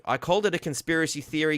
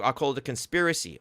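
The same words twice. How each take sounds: First: "theory" added and leaned on, a touch higher; stress on theory. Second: Said in the usual way. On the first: Shown as a demonstration. Correcting the reporter with the right wording, "theory" stressed. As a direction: make sure "theory" lands clearly. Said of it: "Get your fucking information right". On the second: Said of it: "No, you said you".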